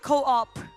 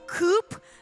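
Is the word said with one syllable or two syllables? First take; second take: two; one. First: The word is said as two syllables. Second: The word is said as one syllable. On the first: "but it's apparently co-op" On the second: "I like to call Coop"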